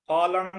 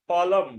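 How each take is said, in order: First: ফলং ending in "ng"; wrong pronunciation. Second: ফলম ending in m, said louder; correct pronunciation. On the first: Teacher shows what it won't be, wrong pronunciation. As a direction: say ফলং as "phalong". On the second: Teacher corrects it, correct pronunciation. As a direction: punch "phalam" for ফলম, closing on m. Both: Shown as a demonstration. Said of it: "ফলং হবে না".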